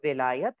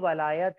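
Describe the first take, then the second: First: The first vowel is an 'i' sound. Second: The first vowel is an 'a' sound. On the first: "वाव के ऊपर जेर लगाओ तो विलायत है" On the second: "अगर फतह या जबर लगाओ तो वलायत है"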